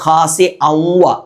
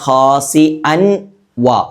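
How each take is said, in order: First: The n sound merges into the w. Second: The n sound is kept separate. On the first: The speaker calls it right. "ഔവ ഔവ എന്ന് ചേർത്തു" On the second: The speaker calls it wrong. "അൻ വ എന്നായിരുന്നു വേണ്ടത്"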